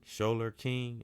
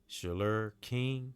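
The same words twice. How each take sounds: First: "Sholer" with a clear long "show" vowel, "SHOW-ler King"; corrected pronunciation. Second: "Sholer" said slow and tentative, first vowel reduced to "shuh-ler"; unsure first try. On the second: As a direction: feel out "Sholer King" slowly, unsure of the name. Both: Shown as a demonstration. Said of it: "forgive me if I don't say his name right".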